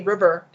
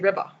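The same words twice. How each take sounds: First: The final ER ends with a clear R sound. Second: The final ER is said without an R sound. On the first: This is how English speakers say it. "they won't say river" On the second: This is how Japanese speakers say it. "they'll say river"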